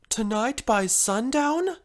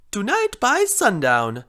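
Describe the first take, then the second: First: "Tonight by sundown" drawn slowly up into a question; "sundown" lifted in worried disbelief; questioning dismay. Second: Put-on loud, swooping Italian accent; emphatic mock Italian accent. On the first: Acted. Repeats customer's deadline in dismay. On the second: A narrator's reading. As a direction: announce it with a sing-song Italian accent. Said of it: "sounded like an Italian accent".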